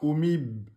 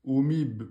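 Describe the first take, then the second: No difference in how they are said.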